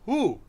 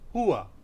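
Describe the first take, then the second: First: The word is said as one short syllable. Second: The word is said as two syllables. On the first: "One is who" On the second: "the second is hua"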